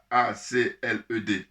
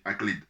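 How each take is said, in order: First: "A C L E D" spelled slowly, letter by letter. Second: "acled" said as a single word, "ak-lid"; said as one word. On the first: Naming the organization's acronym by spelling it out letter by letter. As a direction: say each letter of "A C L E D" slowly and separately. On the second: Unsure of the pronunciation, he tries the acronym as one word, falling away. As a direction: say "acled" as one word, ending on a fall and trailing off. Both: Shown as a demonstration. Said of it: "si je prononce mal".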